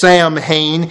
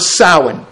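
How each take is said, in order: First: The name is read literally from its English spelling. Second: The name is not read from its English spelling. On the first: The speaker calls it wrong. "you would declare that it is pronounced Samhain, and that is so wrong" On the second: The speaker calls it right. "This is generally pronounced as Samhain"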